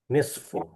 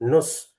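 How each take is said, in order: First: It is two syllables ending in a vowel u. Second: It is one short syllable with a vowel u. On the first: This is the original standard way of saying it. "dibaca aslinya nisfu" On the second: This is the everyday colloquial way of saying it. "kalau secara amiyah bacanya nus"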